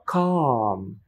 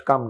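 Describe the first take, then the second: First: "কাম" with a long, open ah; long open vowel. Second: "কাম" with a short vowel, like come; wrong short vowel. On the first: Teacher models calm for learners, long ah. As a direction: stretch the ah in "কাম". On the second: Teacher shows what to avoid, short vowel. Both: Shown as a demonstration. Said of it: "not কাম না".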